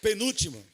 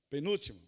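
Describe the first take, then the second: First: "Penúltimo" called out loud and clear; loud announcement. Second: Said in the usual way. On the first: Shown as a demonstration. Preacher announcing his next point, called out loud.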